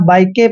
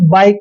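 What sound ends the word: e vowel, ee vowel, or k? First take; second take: e vowel; k. First: The word ends with an added e vowel. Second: The word ends on a plain k sound. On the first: The speaker calls it wrong. "ना बाइक के पढ़ते हैं" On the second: The speaker calls it right. "बाइक पढ़ते हैं"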